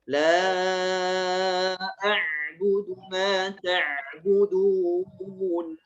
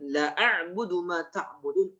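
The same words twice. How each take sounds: First: The vowel of 'la' is held long. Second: The vowel of 'la' is cut short. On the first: I will not worship what you worship. The speaker calls it right. "La itu panjang kan?" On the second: I will truly worship what you worship. The speaker calls it wrong.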